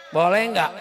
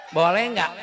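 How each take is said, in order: The two takes are said the same way.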